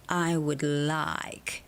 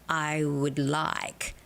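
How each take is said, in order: Both takes have the same delivery.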